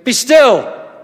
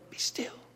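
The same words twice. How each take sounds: First: It is shouted out loudly. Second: It is said softly and gently. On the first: A forceful command to stop. The speaker calls it right. "He shouts it out" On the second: A calm, gentle invitation to be quiet. The speaker calls it wrong. "God doesn't go"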